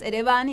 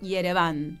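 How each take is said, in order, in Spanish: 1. Se dice con pronunciación española. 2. Se dice con pronunciación armenia. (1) "La capital de Armenia es Ereván" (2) "decimos Yerevan en armenio"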